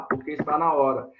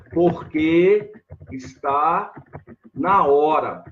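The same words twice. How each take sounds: First: Said in the usual way. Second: "Porque está na hora" spoken slowly, each word laid out; slow model answer. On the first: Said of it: "Olha lá". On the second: Shown as a demonstration. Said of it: "A resposta".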